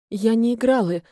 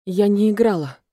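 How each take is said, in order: First: First take, a little less firm; less confident. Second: Louder, firmer repeat; slightly more confident. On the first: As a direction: say it with slightly less assurance. (чуть менее уверенно) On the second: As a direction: repeat it a bit more assertively. (чуть увереннее и твёрже) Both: A narrator's reading. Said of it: "повторила немного увереннее".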